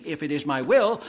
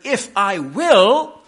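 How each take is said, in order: First: Said in the usual way. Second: "If I will" loud, slow and weighty; emphatic. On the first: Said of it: "He doesn't say, as we have it in our translation". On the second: Shown as a demonstration. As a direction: hammer out "If I will" with drawn-out force on "will". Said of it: "says it very emphatically using a verb".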